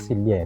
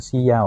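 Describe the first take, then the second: First: The double L sounds like 'ly'. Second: The double L sounds like 'y'. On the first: This is the older way of saying it. "yung old pronunciation is Silya" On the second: This is the modern way of saying it. "yung modern pronunciation, Siya o Sija"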